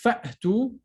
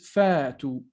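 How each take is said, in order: First: A glottal stop follows the first vowel. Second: The first vowel is lengthened with no stop. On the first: The speaker calls it right. "Correct is fa to" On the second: The speaker calls it wrong. "incorrect is fa to"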